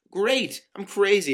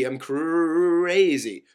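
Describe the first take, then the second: First: High, loud mock agreement; exasperated sarcasm. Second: CRAZY hugely drawn out, loud and high; mocking exasperation. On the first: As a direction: throw it back loudly in a quarrel. Exasperated retort in acted quarrel. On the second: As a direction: stretch out "crazy" in loud mockery. Mockingly repeats the accusation, stretched.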